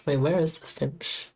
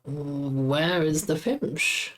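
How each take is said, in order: First: Said in the usual way. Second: Slow puzzled drawl. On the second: Real, not acted. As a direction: stretch out "Where is the Fimsh?" slowly, every word drawn long. Repeats question, drawn out.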